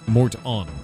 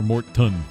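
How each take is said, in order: First: The second syllable sounds like 'on'. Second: The second syllable sounds like 'tun'. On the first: "I don't know how to pronounce that one" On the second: "I don't know how to pronounce that one"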